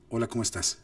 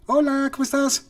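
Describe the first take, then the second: First: Said in the usual way. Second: Much higher and louder, sing-song; high musical intonation. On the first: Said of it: "asignarle un tono". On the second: Shown as a demonstration. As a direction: pitch the greeting way up like high piano notes. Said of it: "como notas musicales".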